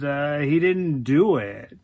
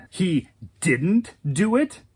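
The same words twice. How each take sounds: First: Hedging statement, falling at the end; matter-of-fact denial. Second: Slow disbelieving question, rising at the end; incredulous echo. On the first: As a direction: state "he didn't do it" as settled. Man's statement, then her disbelieving echo. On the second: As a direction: throw his claim back as a question. She echoes him in disbelief. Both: Acted.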